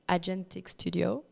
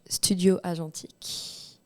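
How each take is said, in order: First: It is said with an American accent. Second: It is said with a French accent.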